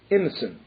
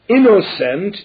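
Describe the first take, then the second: First: The unstressed vowels are clipped and hurried. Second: All the vowels are pronounced fully.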